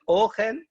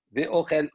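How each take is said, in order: First: Ochel as the noun for food, stress on the O, ségol after, pitched higher and rising; noun reading of ochel. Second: Ve'ochel read as the verb, tsere vowel, stress on the last syllable; verb reading of ochel. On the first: Teacher contrasts the noun with the verb for his study partner, stress on O. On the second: Teacher shows the verb reading to his study partner, stress on the end. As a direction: say Ve'ochel as the verb, ending on -chel. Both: Shown as a demonstration. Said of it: "c'est pas la même, euh, euh, intonation".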